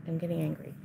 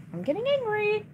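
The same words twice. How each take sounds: First: Low, soft mutter of "angry"; quiet grumble before the outburst; muttered annoyance. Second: "angry" shot up high in exasperation; same words, now a high frustrated whine; pitched-up real frustration; exasperated yelp. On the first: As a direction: say it to yourself under your breath. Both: Real, not acted.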